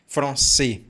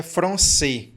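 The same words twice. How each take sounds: First: "Français" with the R made in the throat; French-style back-of-the-throat "fr" in "Français"; correct French R. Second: "français" with a tapped Portuguese R; Portuguese-style "fr" at the start of "français"; read as Portuguese. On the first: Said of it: "não pode falar em francês". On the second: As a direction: say "français" as a Brazilian would read it, tongue-tip R. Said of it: "se você lê isso aqui". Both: Shown as a demonstration.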